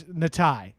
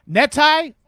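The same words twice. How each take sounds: First: "Natai" said slowly as nah-TIE, settled; corrected name. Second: "Netai" said as NEH-tie, pitched high like a guess; first stab at the name. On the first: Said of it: "Oh, it's Natai". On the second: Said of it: "my accent makes it even harder for me to say". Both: Shown as a demonstration.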